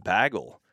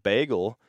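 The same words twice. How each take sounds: First: "bagel" with a short flat A, "baggle"; mistaken bagel pronunciation. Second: "bagel" with a long "ay", BAY-gul; usual bagel pronunciation. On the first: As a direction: say "bagel" to rhyme with "haggle". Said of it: "I just imagined that it was pronounced bagel". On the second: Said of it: "imagined that it was pronounced bagel". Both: Shown as a demonstration.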